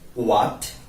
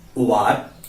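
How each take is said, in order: First: The word starts with a w sound. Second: The same.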